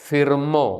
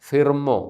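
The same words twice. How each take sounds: Both takes have the same delivery.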